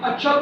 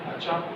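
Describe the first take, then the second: First: The voice rises at the end. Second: The voice does not rise at the end. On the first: The listener reacts to news of passing. "This is rising tone" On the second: The listener is not interested and is ignoring. "you are ignoring"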